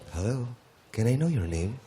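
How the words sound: It is said in a put-on suave, handsome voice.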